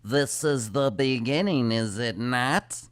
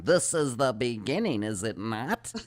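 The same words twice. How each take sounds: First: Slow, solemn otherworldly drone; channeler voice. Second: Channeler voice. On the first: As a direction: intone it like a spirit medium. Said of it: "when they did their channeling with". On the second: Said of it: "goes into this real monotone voice". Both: Retold or imitated.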